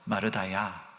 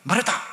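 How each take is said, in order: First: The name is said gently, in a kind voice. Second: The name is said harshly, as a scolding.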